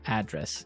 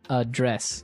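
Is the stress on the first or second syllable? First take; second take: first; second. First: The stress is on the first syllable. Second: The stress is on the second syllable.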